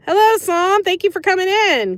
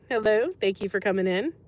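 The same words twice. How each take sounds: First: Much higher and louder, a sing-song welcome; over-the-top greeting. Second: Said in the usual way. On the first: Pretend. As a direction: greet them like a game-show host. Greeting a chatter who joined.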